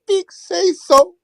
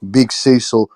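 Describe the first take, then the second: First: Big Say So stretched very high and slow; falsetto shout-out. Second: Said in the usual way. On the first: Pretend. Calling out a viewer's name in a slow high falsetto wail.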